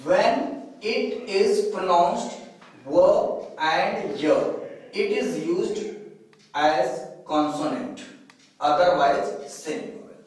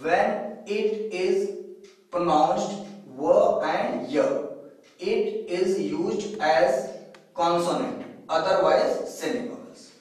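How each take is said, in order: First: Slow dictation. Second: Unhurried repeat of the rule, word by word; slow dictation again. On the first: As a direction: read the rule out slowly, word by word. (धीमे-धीमे नियम पढ़ते हुए) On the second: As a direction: lay the rule out slowly so students copy it. (दोबारा धीरे-धीरे बोलकर लिखवाना) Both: Shown as a demonstration. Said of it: "फिर से देखें".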